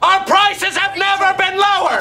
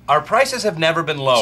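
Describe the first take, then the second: First: It is yelled very loudly. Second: It is said at a normal, quiet volume.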